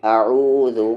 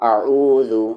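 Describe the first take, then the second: No difference in how they are said.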